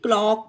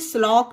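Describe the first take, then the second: First: The word begins with a K sound. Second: The word begins with an S sound. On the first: The speaker calls it right. "इसे क्लॉक पढ़ेंगे" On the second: The speaker calls it wrong. "इसे स्लॉक नहीं पढ़ेंगे"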